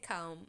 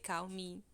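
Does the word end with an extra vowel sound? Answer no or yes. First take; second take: no; yes. First: The word ends on the consonant, no vowel. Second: An extra vowel sound follows the final consonant. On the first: The speaker calls it right. "não tem um i aí no final" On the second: The speaker calls it wrong. "a gente quer botar um som de vogal aí"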